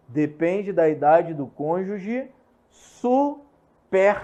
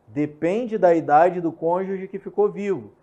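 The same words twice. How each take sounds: First: Slow, with "superstite" split into separate syllables; deliberate slow syllabified reading. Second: Said in the usual way. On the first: Shown as a demonstration. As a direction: spell out "superstite" slowly, su-pers-ti-te. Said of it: "Eu falei assim, é, separado silabicamente". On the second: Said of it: "separado silabicamente".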